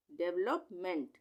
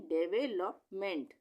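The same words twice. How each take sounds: First: Said in the usual way. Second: डेवलपमेंट slowly, in separated parts; broken into syllables. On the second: Shown as a demonstration. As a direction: sound out डेवलपमेंट part by part. Teacher joins spelled parts of word. (डेवलपमेंट को टुकड़ों में धीरे बोलकर)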